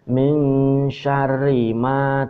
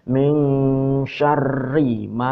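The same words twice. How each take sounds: First: The r in syarri is short and single. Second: The r in syarri is held and doubled. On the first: The speaker calls it wrong. "tidak ditasdid. Ini salah" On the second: The speaker calls it right. "Jadi ini ditasdid"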